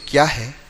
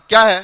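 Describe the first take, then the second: First: It is said in a warm, gentle tone. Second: It is said in a harsh, curt tone. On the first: The listener is drawn closer. The speaker calls it right. "दूसरे के अंदर आदमी तुम्हारे करीब आएगा" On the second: The listener is put off. The speaker calls it wrong. "पहले के अंदर आदमी छू, किसके करीब जाने जैसा है"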